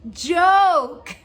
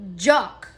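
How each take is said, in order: First: The vowel is a long 'o' like 'poke'. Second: The vowel is a short 'o' like 'lock'. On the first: The speaker calls it right. "oh, joke. It's a joke" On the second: The speaker calls it wrong. "He kept saying, jock"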